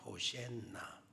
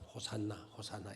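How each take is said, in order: First: The middle syllable has an 'e' vowel. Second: The middle syllable has an 'a' vowel. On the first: This is the Hebrew pronunciation. "히브리어 발음으로는 호센나" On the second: This is the Korean reading. "우리나라 번역안에 우리는 이제 호산나 호산나 이런 식으로 우리가 읽기도 하고"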